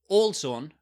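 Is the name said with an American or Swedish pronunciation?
Swedish. The name is said with a Swedish pronunciation. The speaker calls it wrong. "You don't you don't read it with the Swedish pronunciation"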